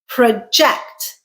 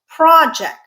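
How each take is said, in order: First: The stress is on the second syllable. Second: The stress is on the first syllable. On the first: It means to estimate or predict. "Second syllable stressed is a verb" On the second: It refers to a plan or big task. "with a stress on the first syllable"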